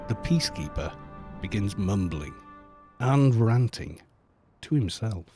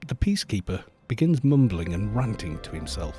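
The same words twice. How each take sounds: First: It is read in a menacing, threatening tone. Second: It is read in a plain, neutral tone.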